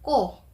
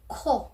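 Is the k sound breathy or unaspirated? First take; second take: unaspirated; breathy. First: The k is released without a puff of air. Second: The k is released with a puff of air. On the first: It means something else. The speaker calls it wrong. "hindi mo siya babanggitin as ko" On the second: It means nose. The speaker calls it right. "parang may hangin palagi"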